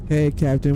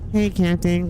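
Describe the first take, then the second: First: The voice is deeper with more bass. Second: The voice is higher and lighter. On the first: The character sounds tougher and bolder. "Put a little bass in his voice" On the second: The character sounds mild and polite. "He went from"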